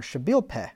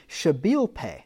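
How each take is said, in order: First: "Shabil Peh" with a short open e ending; alternative pronunciation. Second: "Shabil Peh" with the last word ending like "pay"; alternative pronunciation. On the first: Speaker offering a second guess at a Hebrew term, "Peh" with short e. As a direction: say "Peh" in "Shabil Peh" like "pet" without the t. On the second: Speaker trying a Hebrew term unsure of it, "Peh" said as "pay". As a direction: say "Peh" in "Shabil Peh" with a long ay vowel. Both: Shown as a demonstration. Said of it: "not sure how you pronounce that".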